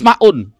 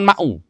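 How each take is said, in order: First: The word ends with an added n sound. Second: The word ends on a vowel without n. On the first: The word is a separate noun followed by an adjective. The speaker calls it right. "harus ma'un" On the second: The word is joined to the next word in a possessive construction. The speaker calls it wrong. "jangan ma'u"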